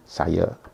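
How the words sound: The final vowel is pronounced like 'e'. "A kedua akan diucapkan menjadi E"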